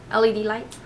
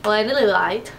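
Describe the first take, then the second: First: Said in the usual way. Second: "L E D light" slurred into one run, like "landa-lie light"; garbled pronunciation. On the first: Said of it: "talking like that". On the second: Real, not acted. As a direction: trip over "L E D light" and mush the letters. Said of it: "What is wrong with me and talking like that?".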